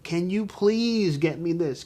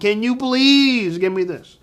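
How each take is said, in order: First: It is said as a plain request. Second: It is said with mocking, exaggerated emphasis.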